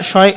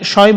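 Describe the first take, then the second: Both takes have the same delivery.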